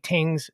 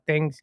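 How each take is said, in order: First: The word begins with a plain t sound. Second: The word begins with a th sound. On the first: "we say tings" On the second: "and not things"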